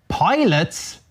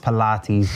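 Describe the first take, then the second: First: It is said as two syllables, like pilots. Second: It is said as three syllables, pih-LAH-teez. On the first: The speaker calls it wrong. "What the hell is pilot?" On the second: The speaker calls it right. "I know it's Pilates"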